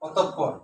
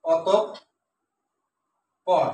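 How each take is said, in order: First: Said in the usual way. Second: অতঃপর very slowly, with a long pause before the final syllable; অতঃপর pulled apart for dictation; split into syllables. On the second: Shown as a demonstration. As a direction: stop before the end of অতঃপর, wait, then finish. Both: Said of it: "এটা সঠিক উচ্চারণ হচ্ছে".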